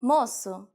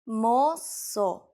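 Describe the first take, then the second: First: Said in the usual way. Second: "moço" stretched into two slow syllables; slow teaching repetition. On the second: Shown as a demonstration. Teacher repeats word slowly. (drawn-out pronunciation model of "moço")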